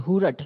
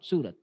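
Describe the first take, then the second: First: The word begins with an h sound. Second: The word begins with an s sound. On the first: This is how local speakers say the city name. "They say Hurat" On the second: This is the standard form of the city name. "not Surat"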